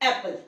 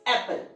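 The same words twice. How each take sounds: No difference in how they are said.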